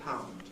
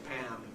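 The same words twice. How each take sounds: First: The vowel in pound sounds like ow. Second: The vowel in pound sounds like ah. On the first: "rather than pound, whereas ordinary Londoners say pound" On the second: "it's very Cockney to say pound"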